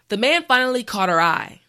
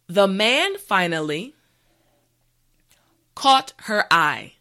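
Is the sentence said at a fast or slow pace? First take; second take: fast; slow. First: The sentence is said at a normal, quicker pace. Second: The sentence is said slowly and carefully. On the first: "the last time at a regular pace" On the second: "this time repeat after me"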